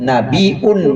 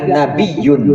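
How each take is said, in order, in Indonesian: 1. Diucapkan tanpa bunyi y setelah nabi. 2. Diucapkan dengan bunyi y setelah nabi.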